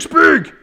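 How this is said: The command is shouted angrily, after repetitions. The speaker calls it wrong. "Repeating, raising your voice, getting angry"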